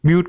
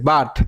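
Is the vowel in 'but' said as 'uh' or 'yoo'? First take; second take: yoo; uh. First: The vowel is said like the letter U. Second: The vowel is a short uh sound. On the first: "ইউ বিউট করার কথা ছিল" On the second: "তারপরে দেখেন বাট"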